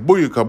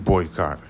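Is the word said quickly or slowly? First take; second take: quickly; slowly. First: The word is said quickly and sounds clipped. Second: The word is said slowly with both syllables clear. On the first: "If you say it fast enough, it's almost like I'm saying boyka" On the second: "But no, I'm saying boycott"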